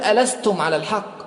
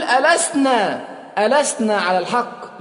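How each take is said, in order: First: Said in the usual way. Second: ألسنا pushed high, the word that shows Omar is now one of them; stress on ألسنا. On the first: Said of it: "لا يقول". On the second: Shown as a demonstration. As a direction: lean hard on ألسنا. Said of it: "خلي بالك، يقول". (ضغط على كلمة ألسنا)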